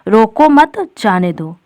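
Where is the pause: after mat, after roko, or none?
after mat. It has a pause right after mat. Do not stop the person; let them go. "यानी जो व्यक्ति है उसे रोको नहीं, जाने दो"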